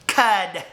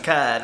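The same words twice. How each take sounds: First: "cud" set apart by itself; repeated for emphasis. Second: Said in the usual way. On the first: Real, not acted. Repeating a word for viewers, "cud" stressed on its own. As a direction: say "cud" alone, firmly and distinctly. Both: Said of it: "cud, I said".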